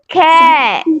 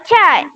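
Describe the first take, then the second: First: The word starts with a k sound. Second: The word starts with a ch sound. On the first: The speaker calls it right. "dia bunyi k" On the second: The speaker calls it wrong. "C dia tak bunyi c"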